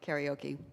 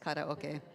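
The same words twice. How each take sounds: First: It is said with an American pronunciation. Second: It is said with a Japanese pronunciation. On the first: The speaker calls it wrong. "U S people say karaoke" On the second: The speaker calls it right. "but it's karaoke"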